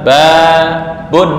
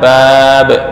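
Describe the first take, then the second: First: The word ends with a full 'un' ending. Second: The word ends cut short on 'b'. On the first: This is the base form of the word. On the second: This is the form used when stopping.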